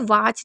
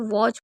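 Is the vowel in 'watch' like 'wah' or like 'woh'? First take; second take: wah; woh. First: The vowel is an open 'ah' sound. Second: The vowel is a rounded 'o' sound. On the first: The speaker calls it wrong. "हम इसे वॉच नहीं पढ़ते हैं" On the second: The speaker calls it right. "इसे वॉच पढ़ना होता है"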